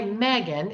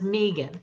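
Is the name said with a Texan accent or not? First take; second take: Texan; not Texan. First: The name is said with a Texan accent. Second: The name is said without a Texan accent.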